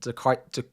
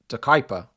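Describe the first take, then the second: First: The name ends with a 'pia' sound. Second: The name ends with a 'per' sound. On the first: The speaker calls it wrong. "another name I keep butchering" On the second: The speaker calls it right. "Someone said it's De Kuiper"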